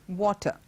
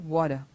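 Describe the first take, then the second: First: The middle consonant is a clear T. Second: The middle consonant is a soft D-like sound. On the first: This is the British pronunciation. "It's water, with the t, T sound being T" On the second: This is the American pronunciation. "in American English ... they say water"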